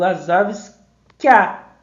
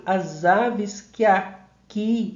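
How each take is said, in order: First: "que a" merged into one loud syllable, KYA; vowels fused. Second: "que aqui" said as separate words, ki a-KI; vowels kept separate. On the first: Teacher showing students the sound fusion, "que a" as one KYA. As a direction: run "que a" together as a single punched KYA. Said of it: "como houvesse uma fusão sonora". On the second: Teacher showing what he doesn't say, "que aqui" unfused. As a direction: say "as aves que aqui" without the fusion. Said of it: "eu não digo". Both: Shown as a demonstration.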